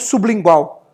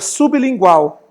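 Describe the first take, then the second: First: The b is joined to the following l. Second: The b is kept apart from the l. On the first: The speaker calls it wrong. "e não sublingual" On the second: The speaker calls it right. "o remédio que você coloca debaixo da língua é sublingual"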